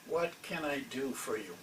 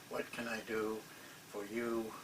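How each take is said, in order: First: It sounds sincere and genuinely interested. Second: It sounds routine and rehearsed. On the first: The speaker really wants to help. "this guy wasn't saying it like that" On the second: The greeting is a scripted formality. "You know that they're just uh, canned"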